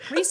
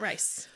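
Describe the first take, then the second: First: The vowel sounds like 'ee', as in Reese. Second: The vowel sounds like 'eye', as in rice. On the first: The speaker calls it right. "Rhys, not Rice" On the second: The speaker calls it wrong. "But I thought it was Rice the whole time"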